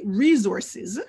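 The last hissing sound is voiced.

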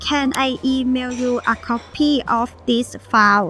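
Thai accent, but file is pronounced clearly. "ออกเสียงตัวคำว่า file ให้ถูกต้อง"

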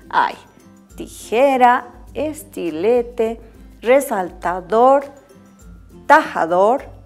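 A short pause separates each listed word. The list has commas after each item. The speaker calls it right. "Ahora sí se puede leer, porque ya he aumentado la coma"

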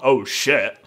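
The voice sounds alarmed and dismayed. Something bad or disastrous has happened. The speaker calls it wrong. "not oh shit. It's all about the intonation"

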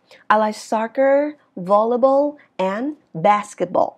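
Pitch rises on early items and falls at the end. The speaker calls it right. "trước cái chữ and á thì nó sẽ là ngữ điệu đi lên, và kết thúc á thì nó sẽ là ngữ điệu đi xuống"

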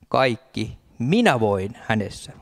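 The emphasis falls on the word minä. The strength comes from oneself. The speaker calls it wrong. "Ei näin. ... Ei minä voin"

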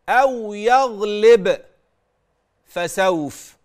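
There is a stop after the middle word. "يغلب أنا وقفت وقرأت وسكت وقطعت كمان الصوت عليه"

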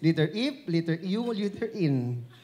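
F and N start with an 'i' vowel. This is how the letters are named in the Philippines. "in Philippines, ... That's how we pronounce it"

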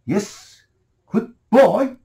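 It is said in a sharp, forbidding tone. The speaker is forbidding the child. "샵 날카롭고 prohibited tone 금지하는 어조를 가지고"

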